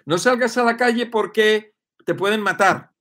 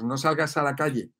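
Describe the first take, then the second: First: Higher, louder mock alarm; alarmist warning. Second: Said in the usual way. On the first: Mimicking media scaring viewers, loud alarmist warning. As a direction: stress salgas like a scary TV warning. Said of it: "Los medios de comunicación te están machacando".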